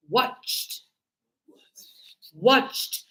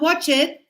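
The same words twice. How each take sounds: First: "Watched" as one syllable ending in a T; correct pronunciation. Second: "watch it" in two syllables, sounding the -ed; wrong pronunciation. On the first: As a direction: model "Watched" with a crisp final T, no extra vowel. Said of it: "this is going to be T". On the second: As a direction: mispronounce it as "watch it", extra syllable at the end. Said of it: "So it's not watch it". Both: Shown as a demonstration.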